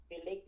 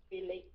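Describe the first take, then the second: No difference in how they are said.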